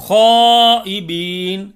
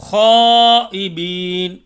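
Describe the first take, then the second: Both takes have the same delivery.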